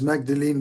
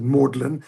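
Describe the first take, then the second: First: The name is said as it is spelled. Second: The name is said like the word 'maudlin'. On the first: This is how the written name reads. "you read it as Magdalene" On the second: This is how the British college says it. "they of course are British, so they pronounce it Maudlin"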